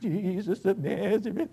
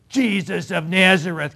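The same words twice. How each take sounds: First: It is said with a quaking, fearful voice. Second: It is said boldly and confidently.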